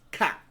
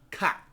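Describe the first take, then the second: Both takes have the same delivery.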